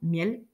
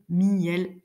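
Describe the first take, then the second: First: The word is said as one syllable. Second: The word is split into two syllables. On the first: "on prononce le son ensemble" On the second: "on le prononce en deux"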